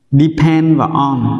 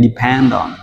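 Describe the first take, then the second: First: "Depend" and "on" said apart, slowly; separate words. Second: "Depend on" run together as di-PEN-don; linked words. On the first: Teacher separates "Depend" and "on" before linking them, slow and apart. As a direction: split "Depend" from "on" with "và" between. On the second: Teacher shows linking in "Depend on", joined as one word. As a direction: carry the D of "Depend" into "on". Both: Shown as a demonstration. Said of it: "chúng ta nối liền lên".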